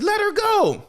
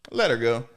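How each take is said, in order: First: High-pitched yelled order; mock frantic demand. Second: Said in the usual way. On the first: Demanding they free the girl, high mock-frantic cry.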